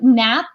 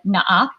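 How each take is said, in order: First: It is said plainly, as one short word. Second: It is said in a Filipino accent, vowels spelled out.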